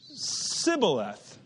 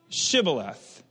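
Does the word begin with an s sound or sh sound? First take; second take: s; sh. First: The word begins with an s sound. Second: The word begins with an sh sound. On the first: The speaker calls it wrong. "he could not frame to pronounce it right" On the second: The speaker calls it right. "say now Shibboleth"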